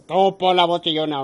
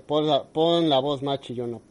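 First: Louder insistent order; demanding producer. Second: Said in the usual way. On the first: Retold or imitated. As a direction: bark the order like a boss. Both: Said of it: "la obligan a hacer".

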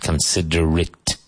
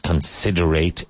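First: Considerate with a short, weak "-it" at the end; correct reduced ending. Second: Considerate with a full "-ate" ending, like late; mistaken spelling pronunciation. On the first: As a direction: say considerate as con-SID-er-it. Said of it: "It's pronounced considerate". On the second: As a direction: show the mistake, considerate as con-sid-er-ATE. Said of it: "it's not pronounced considerate". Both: Shown as a demonstration.

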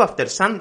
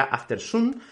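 First: "after sun" said the Spanish way, afteɾ san with a tapped r; Spanish-style pronunciation. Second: "after sun" with English vowels and r; English pronunciation. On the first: Teacher shows students how Spaniards say "after sun". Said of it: "Yo digo after sun". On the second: Teacher contrasts the English way of saying "after sun". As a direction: say "after sun" the English way, not the Spanish san. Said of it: "hay gente que dirá after sun". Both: Shown as a demonstration.

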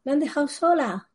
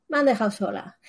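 First: "sola" alargado y agudo, en tono de queja dramática; quéjate teatral: "me han dejado sola"; lamento exagerado. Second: Said in the usual way. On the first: Acted. (lamento teatral con "sola" alto)

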